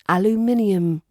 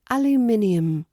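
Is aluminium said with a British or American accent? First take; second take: British; British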